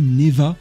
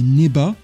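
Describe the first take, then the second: First: The middle consonant is a V sound. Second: The middle consonant is a B sound. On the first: The speaker calls it wrong. "dans les traductions, traduit Neva" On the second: The speaker calls it right. "Non, c'est Neba"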